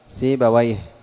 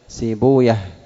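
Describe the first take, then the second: First: The ending is pronounced as -awayh. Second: The ending is pronounced as -uyah. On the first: This is the form used by language scholars. "فأما أهل اللغة فيجعلونه من المركب المزجي" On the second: This is the form used by hadith scholars. "وأما المحدثون فيضمون ما قبل الواو"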